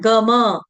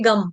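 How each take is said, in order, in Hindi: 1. दोनों अक्षर पूरे हैं, स्वर पर खत्म होते हैं। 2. यह एक अक्षर है, व्यंजन पर खत्म होता है। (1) "ग और म दोनों पूर्ण है, आधे नहीं है" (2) "इसको ऐसे नहीं करेंगे"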